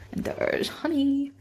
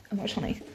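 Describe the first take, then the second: First: Higher, slow pet-talk croon; a sweet, drawn-out hello to the dog; cooing at the dog. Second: Said in the usual way. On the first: Real, not acted. Repeats the dog's name, cooing.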